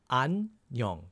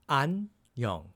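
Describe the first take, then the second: Both takes have the same delivery.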